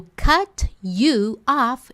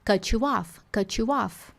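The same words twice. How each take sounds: First: "cut you off" very slow, each word apart, T released; slow textbook "cut you off", no linking; slow separate. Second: "Cut you off" run together as "cutchu off"; linked cutchu. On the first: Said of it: "frase da Rachel". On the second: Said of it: "Na hora de conectar". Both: Shown as a demonstration.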